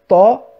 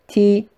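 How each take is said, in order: First: The syllable sounds deep and heavy. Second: The syllable sounds very thin and sharp. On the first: "on l'a pas dit grave" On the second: "on l'a pas dit très aigu"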